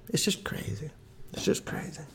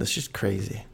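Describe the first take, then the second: First: Breathy whisper, much softer. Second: Said in the usual way. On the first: Acted. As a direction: whisper it in disbelief. Repeated musing, whispered.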